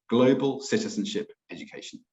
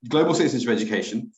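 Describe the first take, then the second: First: The phrase is said more slowly and carefully. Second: The phrase is said quickly and rushed. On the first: The speaker calls it right. "I'll say that a bit slower" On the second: The speaker calls it wrong. "Sorry, I'm rushing"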